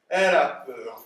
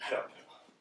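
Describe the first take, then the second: First: Projected, delighted discovery; loud announcement. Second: Unvoiced murmur to himself; hushed aside. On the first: Acted. Father announces his daughter's fear as good, loudly. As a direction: declare it out loud. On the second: Father notes his daughter's fear, hushed aside. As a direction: let it slip out under the breath.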